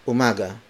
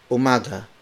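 No difference in how they are said.

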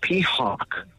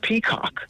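First: The second syllable starts with an H sound. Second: The second syllable starts with a K sound. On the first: The speaker calls it wrong. "She keeps saying peahawk with an H" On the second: The speaker calls it right. "no, it's peacock"

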